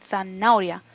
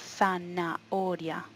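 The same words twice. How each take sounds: First: The middle vowels merge into one syllable. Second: The middle vowels form two separate syllables. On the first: The speaker calls it wrong. "No decimos zanahoria" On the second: The speaker calls it right. "sino zanahoria ... No es un diptongo, se nota que hay dos sílabas"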